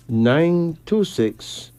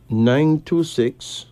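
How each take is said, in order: Both takes have the same delivery.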